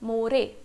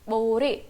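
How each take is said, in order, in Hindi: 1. इस शब्द की शुरुआत m ध्वनि से होती है। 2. इस शब्द की शुरुआत b ध्वनि से होती है। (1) "अकॉर्डिंग टू रोमनाइजेशन" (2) "but it sounds close to बोरे, ब वाला साउंड आएगा"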